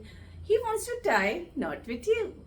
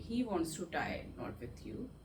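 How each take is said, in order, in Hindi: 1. यह वाक्य खुशी के लहजे में बोला गया है। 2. यह वाक्य उदासी के लहजे में बोला गया है। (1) "अगर खुशी से बोलना है" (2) "सैडली"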